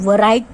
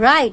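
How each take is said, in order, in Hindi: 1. यह शब्द W की ध्वनि से शुरू होता है। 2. यह शब्द बिना W की ध्वनि के शुरू होता है। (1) "अब इसको हम वराइट तो नहीं बोलते हैं" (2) "it is राइट, so we can say डब्ल्यू is silent"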